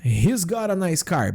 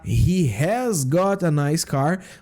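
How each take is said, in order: First: It is said fast, fully contracted. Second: It is said slowly, without contraction.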